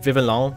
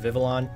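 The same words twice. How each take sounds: First: The name is pronounced like French papillon. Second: The name is pronounced like an English word.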